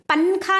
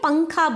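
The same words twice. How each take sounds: First: The n is pronounced clearly with the tongue. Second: The n is hidden and carried through the nose. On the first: The speaker calls it wrong. "पंखा नहीं बोलते हमें" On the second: The speaker calls it right. "नून को देखो हमें नाक में ले ले को जाको पढ़ रही"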